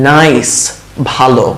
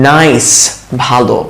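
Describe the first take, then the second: Both takes have the same delivery.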